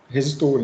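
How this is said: It is pronounced the Portuguese way. "a gente fala resistor"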